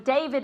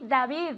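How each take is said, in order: First: The name is pronounced the English way. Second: The name is pronounced the Spanish way.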